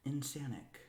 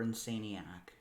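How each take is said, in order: First: Insanic, ending in "-anic"; first pronunciation. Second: Insaniac, ending like "maniac"; alternative pronunciation. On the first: Reader offering one way to say the author's name, Insanic with an "-anic" ending. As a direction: say Insanic in three syllables, rhyming with "panic". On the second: Reader offering the other way to say the author's name, Insaniac like "maniac". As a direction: say Insaniac with "insane" in it, then "-iac". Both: Shown as a demonstration. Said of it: "Either way you, you pronounce it".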